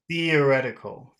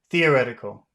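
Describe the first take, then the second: First: The word is said at a moderate pace. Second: The word is said at a fast pace.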